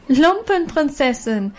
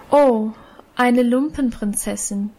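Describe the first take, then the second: First: Lumpenprinzessin called out higher and slow, jeering; mocking crowd call. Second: A lightly cool, mocking eine Lumpenprinzessin. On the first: Schoolgirls jeering at Annchen, slow taunting call. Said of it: "riefen die anderen und lachten". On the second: Elisabeth mocking Annchen's rags, coolly. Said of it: "mit ihrer kühlen Stimme". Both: A narrator's reading.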